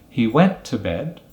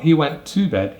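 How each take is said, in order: First: The word 'to' is reduced to a weak form. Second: The word 'to' is said in its full form. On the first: The speaker calls it right. "we're going to use the weak form" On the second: The speaker calls it wrong.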